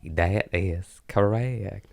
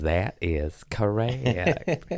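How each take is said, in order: First: Slow, drawn "That is correct" with a slight accent; a mild put-on accent, slow; accent slip. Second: Lightly voiced slow Chris Farley; a hint of Chris Farley, slow and drawn; Chris Farley impression. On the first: Shown as a demonstration. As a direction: let the accent creep into "That is correct". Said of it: "It's just in the D N A now". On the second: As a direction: drawl it out slowly like Farley. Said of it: "and he goes".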